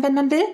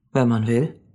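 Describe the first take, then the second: First: Put-on very high child's voice, rising; astonished little girl; amazed question. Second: Unhurried matter-of-fact reply; calm confirmation. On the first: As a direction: ask it sky-high with wonder. Mia asks again, man confirms. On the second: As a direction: confirm it simply and steadily. Man calmly confirms again. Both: A narrator's reading.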